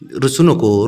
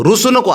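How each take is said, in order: First: Said in the usual way. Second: Raised, sing-song coaxing on नको; higher pleading tone to a sulking little one. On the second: Real, not acted.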